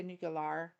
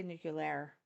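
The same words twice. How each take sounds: First: Nuclear ending in "-lar"; disputed pronunciation. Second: Nuclear ending in "-lair"; disputed pronunciation. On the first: Streamer denying a mispronunciation to chat, nuclear as "nuke-yuh-lar". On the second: Streamer denying a mispronunciation to chat, nuclear as "nuke-yuh-lair". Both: Retold or imitated. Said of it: "I didn't say nuclear".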